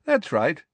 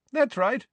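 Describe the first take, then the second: First: Pleasantly agreeing, a little higher. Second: High, cheerful agreement. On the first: Headmaster confirming to the shocked minister, pleasantly. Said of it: "said Dumbledore pleasantly". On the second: Headmaster confirming the plot to minister, cheerfully. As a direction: agree brightly, as if pleased. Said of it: "said Dumbledore cheerfully". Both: A narrator's reading.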